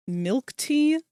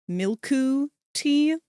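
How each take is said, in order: First: Said in the usual way. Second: Milku tea, slow, with a Japanese accent; bad Japanese accent. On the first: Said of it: "it's not milk tea". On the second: Shown as a demonstration. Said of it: "try to do a bad Japanese accent".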